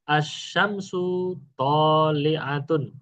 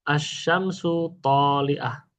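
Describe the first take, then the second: First: The final vowel ending is fully pronounced. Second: The final vowel ending is dropped. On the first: This is the complete reading without stopping. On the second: This is the pausal reading at a stop.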